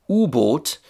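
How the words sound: It is said with a German pronunciation. "So in German, Unterseeboot got shortened to U-boat"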